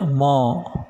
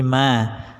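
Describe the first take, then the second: First: The vowel sounds rounded, like o. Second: The vowel sounds open, like a. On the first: The speaker calls it wrong. "tidak mo" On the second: The speaker calls it right. "tapi ma"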